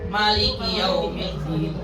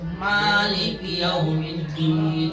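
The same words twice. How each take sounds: First: The vowel after the M is kept short. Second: The vowel after the M is held long.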